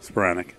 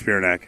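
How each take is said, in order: First: Spiranac re-said quietly with the right sounds; quietly fix the surname Spiranac; low, soft correction of Spiranac; Spiranac corrected. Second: Spiranac stumbled as "Spearanac"; Spiranac mispronounced. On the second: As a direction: slip on the surname Spiranac. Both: Real, not acted. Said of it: "I knew I was gonna do that".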